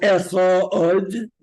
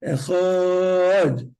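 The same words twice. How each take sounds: First: Echad with a long stretched ah, the mistake; wrong take, drawn out. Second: Echad with the ah held long; demo take. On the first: Teacher exaggerating the wrong pronunciation. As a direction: drag out Echad. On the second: Teacher giving the version students use. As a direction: show the stretched form. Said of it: "That's wrong". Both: Shown as a demonstration.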